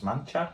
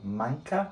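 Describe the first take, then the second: First: The middle consonant is a ch sound. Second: The middle consonant is a hard k sound.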